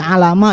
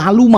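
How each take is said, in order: First: The middle syllable has the vowel a. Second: The middle syllable has the vowel u. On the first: "jangan menjadi alama" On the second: "jangan menjadi aluma"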